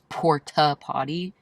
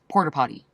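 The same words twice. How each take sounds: First: The first word ends in a plain vowel. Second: The first word ends with an r sound. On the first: This is how it is written. "I'm aware that it says porta potty" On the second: This is how it is said in the South. "but the way we say it is"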